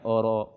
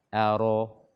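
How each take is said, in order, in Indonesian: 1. Vokal hamzah pembuka itu ditebalkan dan dibulatkan. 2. Vokal hamzah pembuka itu tipis dan jelas. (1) "bukan oro" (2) "bacalah hamzah dengan jelas, dengan tipis"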